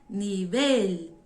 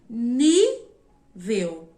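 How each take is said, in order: First: The stress is on the last syllable. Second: The stress is on the first syllable. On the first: This is the Spanish word. "o el é onde está a força" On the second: This is the Portuguese word. "Em português, a sílaba tônica é o ni"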